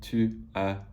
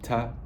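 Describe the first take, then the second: First: The vowel of tu is fully pronounced. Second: Tu is reduced to a single t sound. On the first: The speaker calls it wrong. "no one says it like that" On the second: The speaker calls it right. "It always gets reduced to t"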